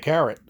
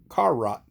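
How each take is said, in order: First: It is said as the usual word 'carrot'. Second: It is said as two words, 'car' and 'rot'. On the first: "some people say carrot" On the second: "C A R is car, R O T is rot, so it's carrot"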